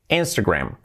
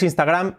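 First: It is said with an English pronunciation. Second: It is said with a Spanish pronunciation. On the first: The speaker calls it right. "es Instagram" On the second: The speaker calls it wrong. "Aquí decimos, uy, te he visto en Instagram. No, no es Instagram"

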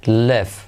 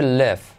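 Both takes have the same delivery.

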